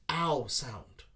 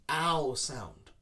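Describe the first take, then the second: The two takes are said the same way.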